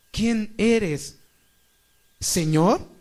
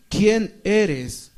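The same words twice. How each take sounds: First: ¿Quién eres, pausa marcada, luego Señor? subiendo; pausa en la coma. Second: ¿Quién eres? como una sola pregunta seca, acento en quién; ¿Quién eres? dicho de golpe, sin pausa ni coma. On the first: (¿Quién eres, con pausa en la coma, y Señor? al final) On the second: (¿Quién eres? seco, sin la coma ni el Señor) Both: Shown as a demonstration. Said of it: "Y hay una coma".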